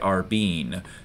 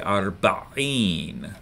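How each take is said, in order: First: The middle throat consonant is left out. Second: The middle throat consonant is clearly pronounced. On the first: The speaker calls it wrong. "Don't miss the ein here. Don't say arbeen" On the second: The speaker calls it right. "Say arba'in, like that"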